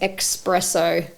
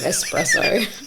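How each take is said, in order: First: The word begins with an 'ex' sound. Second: The word begins with an 'es' sound. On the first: The speaker calls it wrong. "says espresso instead of" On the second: The speaker calls it right. "instead of espresso"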